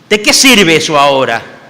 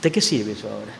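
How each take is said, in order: First: Louder, pained outburst; loud bitter question. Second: Soft, low, resigned; quiet weary question. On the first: Peter cries out to the Lord what use it is now. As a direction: throw the question out in frustration. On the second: Peter quietly asks the Lord what use it is now. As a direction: ask it half under your breath. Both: Retold or imitated. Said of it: "imagino que Pedro le diría".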